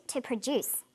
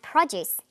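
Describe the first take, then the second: First: "produce" stressed on the second syllable, pro-DUCE. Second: "produce" stressed on the first syllable, PRO-duce. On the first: Teacher models produce meaning to make, second-syllable stress on "produce". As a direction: put the weight of "produce" on DUCE, slowly. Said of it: "second syllable emphasis for the verb form". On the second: Teacher models produce that you eat, first-syllable stress on "produce". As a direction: put the weight of "produce" on PRO. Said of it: "first syllable emphasis for the noun form". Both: Shown as a demonstration.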